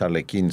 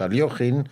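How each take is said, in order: First: The name is said with a hard 'kh' sound. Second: The name is said with a soft 'sh' sound. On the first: The speaker calls it wrong. "porque no es Alekhine" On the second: The speaker calls it right. "su pronunciación es Alyoshin"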